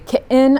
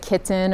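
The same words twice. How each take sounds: First: The middle consonant is a glottal stop. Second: The middle consonant is a clear t. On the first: "I say kitten" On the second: "I don't say kitten"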